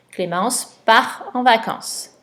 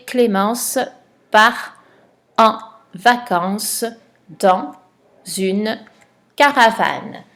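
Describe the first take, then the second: First: Said in the usual way. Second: Word by word dictation. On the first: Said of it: "C'est le verbe partir". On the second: Shown as a demonstration. Teacher dictating the sentence to a pupil, word by word. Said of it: "Tu as trouvé la phrase".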